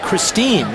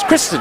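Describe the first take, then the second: First: The last syllable has a long vowel. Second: The last syllable has a short vowel. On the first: The speaker calls it wrong. "when you first look at it, looks like Christine" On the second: The speaker calls it right. "we do not pronounce the long I"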